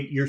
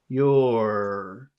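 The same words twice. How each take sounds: First: The word is short and reduced. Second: The word is drawn out with several sounds. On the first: "But in the middle of a sentence" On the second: "if you're pronouncing the word separately, it's very long and it has about three sounds in it"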